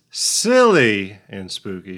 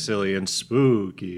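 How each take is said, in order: First: "silly" drawn out and louder; long, punched "silly", lighter "and spooky"; stress on silly. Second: "spooky" stretched on a long vowel; quick "silly", lingering "spooky"; stress on spooky. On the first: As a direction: lean hard and slow on "silly". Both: Shown as a demonstration. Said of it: "It's just the emphasis changes".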